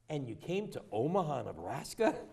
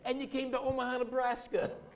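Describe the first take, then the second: First: It sounds doubtful, like a disbelieving question. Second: It sounds proud, like a confident statement. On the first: The place seems an odd choice to live. The speaker calls it wrong. "How many of you do exactly what I just did?" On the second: The place is something to be proud of. The speaker calls it right. "It's the mindset about how proud we are of who we are"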